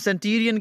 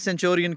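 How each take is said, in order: First: The middle consonant is a plain 't' sound. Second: The middle consonant is a 'ch' sound. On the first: "British accent mein, British jo pronunciation hai usme usko, हम सेंटूरियन कहते हैं" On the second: "American में सेंचुरियन कहते हैं"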